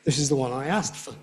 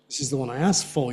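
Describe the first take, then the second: First: The final 'for' is reduced to a weak form. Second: The final 'for' is said in full. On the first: The speaker calls it wrong. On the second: The speaker calls it right. "You don't get the weak form there"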